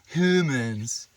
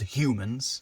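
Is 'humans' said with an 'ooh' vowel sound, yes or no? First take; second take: yes; no. First: The first vowel is an 'ooh' sound. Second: The first vowel is not an 'ooh' sound. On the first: The speaker calls it right. "With the ooh" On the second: The speaker calls it wrong. "Not humans"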